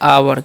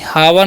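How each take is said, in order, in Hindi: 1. यह शब्द स्वर ध्वनि से शुरू होता है। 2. यह शब्द h ध्वनि से शुरू होता है। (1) "एच साइलेंट होता है इसलिए हम पढ़ते हैं आवर" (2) "सॉरी हावर नहीं"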